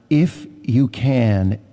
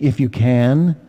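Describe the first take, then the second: First: It is said with a statement tune. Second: It is said with a questioning tune. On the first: Jesus challenges the father to a higher faith. "the way I read it this morning" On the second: Jesus doubts or questions the father's words. "You could almost read it with a question"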